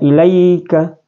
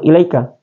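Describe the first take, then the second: First: The 'ai' is a soft gliding diphthong. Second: The 'ai' is not a soft gliding diphthong. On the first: The speaker calls it right. "Jadi bacanya ilaika" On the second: The speaker calls it wrong. "bukan ilaika"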